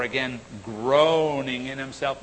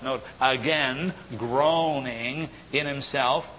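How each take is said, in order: First: Said in the usual way. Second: "groaning" stressed, read slowly; slow emphatic reread. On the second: Shown as a demonstration. Preacher rereads the verse so the flock notes it, slow and stressed. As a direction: lean on "groaning" to make them note it.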